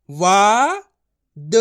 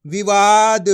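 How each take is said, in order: First: वा held long and loud, then a separate द; letter by letter. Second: विवाद as one word, loud on the long वा; blended together. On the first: Teacher modelling his method for learners, letter by letter. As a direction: sound out वा ... द with a pause between. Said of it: "एक एक अक्षर का उच्चारण करके पढ़ रहा हूँ". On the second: Teacher reading the combined word to learners, विवाद blended. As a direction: join it up into विवाद, stretching the middle. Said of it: "तो मिलके बन जाएगा". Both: Shown as a demonstration.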